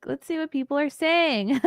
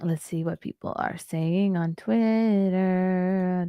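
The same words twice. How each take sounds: First: Laughing through the words; high and laughing. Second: Drawn-out slow reading; slow drawl. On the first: Real, not acted. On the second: Acted. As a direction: stretch every word out slowly. Drawn out against the later take.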